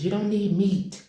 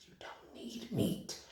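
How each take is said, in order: First: Plain. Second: Whispered repeat. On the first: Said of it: "repeated line". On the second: Vlogger whispering a tip to viewers, hushed. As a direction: whisper it, higher and slower. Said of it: "repeated as whisper". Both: Shown as a demonstration.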